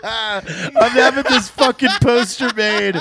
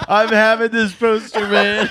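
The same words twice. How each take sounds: First: Laughing it out, slow; cracking up while announcing the poster. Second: Laughing through a repeat. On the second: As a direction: still laughing, slower. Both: Real, not acted.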